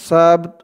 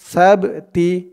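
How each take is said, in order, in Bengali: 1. শব্দটি শুধু ত ব্যঞ্জনে শেষ হয়। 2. শব্দটি হ্রস্ব ই স্বরে শেষ হয়। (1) "আমরা এখানে অক্ফ করছি থামছি তাই আমরা উচ্চারণ করব সাবত" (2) "থামতাম অক্ফ না করতাম তাহলে আমাদের এখানে উচ্চারণ করতে হতো সাবতি"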